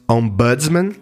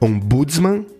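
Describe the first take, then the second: First: It uses the original foreign-style pronunciation. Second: The stress falls on the second-to-last syllable. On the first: "as pronúncias mais originais" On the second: "ou como paroxítona"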